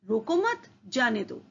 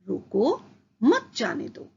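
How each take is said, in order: First: It is said without any pause. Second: There is a pause after the first word. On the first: The meaning is unclear. "पहले वाक्य से अर्थ स्पष्ट नहीं हो रहा है।" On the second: The listener is told to stop the person. "रोको के बाद अल्प विराम"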